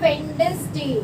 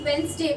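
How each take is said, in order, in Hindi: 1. बीच में d की आवाज़ सुनाई देती है। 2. बीच में d की आवाज़ सुनाई नहीं देती। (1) "हम लिखते क्या" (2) "एक्चुअली जब सडनली आप बोलोगे तो वेंसडे बोलते हैं"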